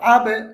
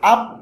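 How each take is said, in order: First: The final b is released with a bounce. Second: The final b is held with closed lips. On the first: The speaker calls it right. "এই যে ছেড়ে দিল, ঠোঁটটা কিন্তু লাগিয়ে রাখি নাই" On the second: The speaker calls it wrong. "আব বললে তো লাগিয়ে রাখলাম"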